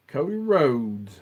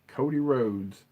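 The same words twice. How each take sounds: First: Slow, stretched, louder wrestling-style name call; drawn-out announcer call. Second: Said in the usual way. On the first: Shown as a demonstration. Hyping the wrestler's name to the viewers, slow announcer call.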